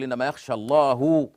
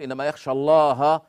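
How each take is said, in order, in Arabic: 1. تنتهي كلمة Allah بحركة u. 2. تنتهي كلمة Allah بحركة a. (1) "إذا الله هنا يعني المفعول منه الخشية للعلماء" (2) "أي أن العلماء هم الذين يخشون الله"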